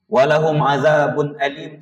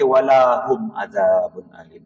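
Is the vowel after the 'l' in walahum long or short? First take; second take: short; long. First: The vowel after the l is short. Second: The vowel after the l is long. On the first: For them there is a painful punishment. The speaker calls it right. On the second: It turns into a negation: not them. The speaker calls it wrong.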